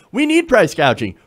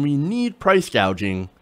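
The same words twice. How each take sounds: First: Need hit higher and louder; stress on need. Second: Said in the usual way. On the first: Shown as a demonstration. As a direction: lean hard on "need" and let it fall. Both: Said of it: "emphasis in the word need".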